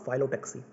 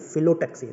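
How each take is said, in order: First: The first syllable has a long 'fie' vowel. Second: The first syllable has a short 'fi' vowel. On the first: The speaker calls it wrong. "Not फाइलोटैक्सी" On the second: The speaker calls it right. "फाइलो नहीं है, फिलोटैक्सी"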